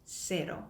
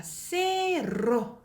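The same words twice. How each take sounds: First: "세로" with one light tap, no roll; quick single flap in "세로"; tapped r. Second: "세로" drawn out with a trilled r; slow "세로" with an exaggerated trill; wrongly rolled r. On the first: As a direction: say "세로" short with an untrilled r. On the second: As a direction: roll the r hard in the middle of "세로". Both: Shown as a demonstration. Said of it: "아니고 어떻게?".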